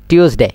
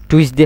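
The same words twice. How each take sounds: First: টিউসডে with "tyoos" as first syllable; corrected TUESDAY. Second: টুইসডে with "tui" as first syllable; mistaken TUESDAY. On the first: Teacher correcting students, টিউসডে said "tyoos-dey". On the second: Teacher quoting the common mistake, টুইসডে with "twis". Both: Shown as a demonstration. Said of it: "এবারে হবে না টিউসডে".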